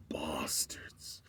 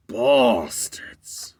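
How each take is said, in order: First: Low whispered curse. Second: Louder curse. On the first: Cafe guy cursing the FBI, whispered under breath. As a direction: lower whispered hiss. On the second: Guy curses aloud. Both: Retold or imitated.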